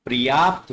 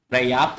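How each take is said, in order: First: पर्याप्त as "par-yaapt"; correct pronunciation. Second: पर्याप्त as "pra-yaapt"; wrong pronunciation. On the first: Teacher gives pupils correct पर्याप्त, said "par-yaapt". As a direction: say पर्याप्त with a vowel before the r. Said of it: "पर्याप्त होता है". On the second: Teacher rejects the mistaken पर्याप्त, said "pra-yaapt". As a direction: say पर्याप्त with r straight after p. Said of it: "पर्याप्त नहीं होता". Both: Shown as a demonstration.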